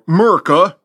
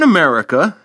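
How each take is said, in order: First: The word is clipped to two syllables. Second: The word is said in full, four syllables.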